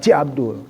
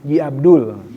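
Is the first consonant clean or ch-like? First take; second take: ch-like; clean. First: The first consonant sounds like a breathy ch. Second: The first consonant is a clean voiced j. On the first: The speaker calls it wrong. "bukan Ci Abdul" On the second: The speaker calls it right.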